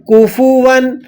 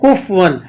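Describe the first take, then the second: First: A short u vowel follows the f. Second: The f runs straight into the w. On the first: The speaker calls it right. "फा पेश फू" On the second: The speaker calls it wrong. "इसके पढ़ने में क्या मिस्टेक होती है"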